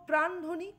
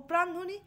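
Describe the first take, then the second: The two takes are said the same way.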